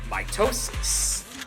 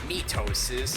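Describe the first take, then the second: First: The first syllable sounds like 'my'. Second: The first syllable sounds like 'mee'. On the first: The speaker calls it right. "other words that have the prefix of my" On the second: The speaker calls it wrong. "you don't say mitosis"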